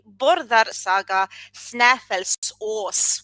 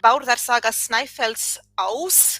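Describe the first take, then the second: First: It is said with medieval Icelandic vowel sounds. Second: It is said with modern Icelandic vowel sounds. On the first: "prefer the medieval pronunciation" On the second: "That would be the modern Icelandic pronunciation"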